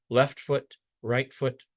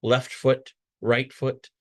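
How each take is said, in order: Both takes have the same delivery.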